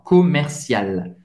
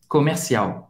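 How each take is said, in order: First: "comercial" slow, with a clear final L; French pronunciation. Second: "comercial" with the final L as a W glide; Portuguese pronunciation. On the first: Teacher modelling the French word slowly, final L sounded. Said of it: "em francês é o centre commercial". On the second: Teacher giving the Portuguese translation, Portuguese pronunciation. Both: Shown as a demonstration.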